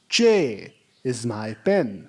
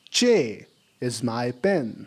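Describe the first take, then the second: First: The first word ends in a clear vowel. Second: The same.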